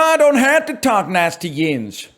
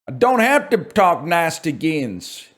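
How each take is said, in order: First: It is said at a faster pace. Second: It is said at a slower pace.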